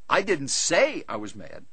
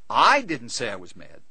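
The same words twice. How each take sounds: First: The stress is on the word say. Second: The stress is on the first word, I. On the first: It was expressed another way, not spoken. "I wrote him about it" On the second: Someone else said it. "He said I was mad"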